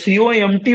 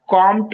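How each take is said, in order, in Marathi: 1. हे एक एक अक्षर करून म्हणतात. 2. हे एकच शब्द म्हणून म्हणतात. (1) "जास्त मोठं नाव आहे तर सीओएमटी म्हणा" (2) "कॉम्ट म्हणू नका प्लीज"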